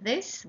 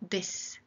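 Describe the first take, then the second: First: The word begins with a soft th sound. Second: The word begins with a hard d sound. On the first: "they don't say this" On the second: "they pronounce th, d. So they say, ... but this"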